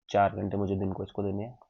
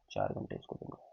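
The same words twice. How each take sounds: First: Said in the usual way. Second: Soft repeat. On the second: Real, not acted. Quiet repeat of the point.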